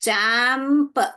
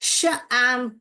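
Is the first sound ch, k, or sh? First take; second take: ch; sh. First: The word begins with a ch sound. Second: The word begins with a sh sound. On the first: The speaker calls it right. "च एम्प, चैम्प, यही correct लग रहा है" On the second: The speaker calls it wrong. "तो ये जो है शैम्प, शैम्प हो रहा है"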